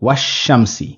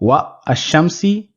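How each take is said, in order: First: Wa runs straight into the article without break. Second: A break separates wa from the article. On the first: The speaker calls it right. "it's pronounced" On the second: The speaker calls it wrong. "Rather than"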